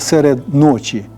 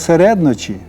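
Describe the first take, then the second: First: It is said as two separately stressed words. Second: It is said as one word with one stress. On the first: "Це теж 2 слів" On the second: "саме з таким наголосом"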